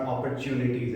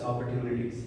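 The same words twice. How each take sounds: First: The t before u sounds like ch. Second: The t before u sounds like plain t. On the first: The speaker calls it wrong. "It's not opportunities" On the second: The speaker calls it right. "it's opportunities"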